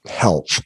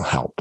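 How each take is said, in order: First: "Health" said again cleanly with a clear th; "Health" repeated carefully to fix it; corrected word. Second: "health" slurred low and quiet, ending like "help"; "health" tripping over the final th; fumbled word. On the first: Shown as a demonstration. Correcting herself for viewers, "Health" said clearly. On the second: Real, not acted. Talking to viewers late at night, "health" stumbles out wrong. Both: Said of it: "I cannot talk right".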